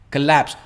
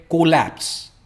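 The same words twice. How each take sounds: First: collapse with the stress on lapse; right stress. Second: collapse with the stress on को; wrong stress. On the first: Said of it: "stress एंड part में आता है". (Collapse में lapse पर ज़ोर) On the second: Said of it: "ये को नहीं है". (कोलैप्स, गलत ज़ोर को पर) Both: Shown as a demonstration.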